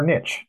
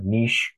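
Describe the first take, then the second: First: "Niche" said as neesh, rhyming with quiche; neesh pronunciation. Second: "Niche" said as nitch, rhyming with itch; nitch pronunciation. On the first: Host offering the alternative pronunciation, "Niche" as neesh. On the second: Host naming the workshop, saying "Niche" as nitch. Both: Shown as a demonstration. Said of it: "depending where you live in the country".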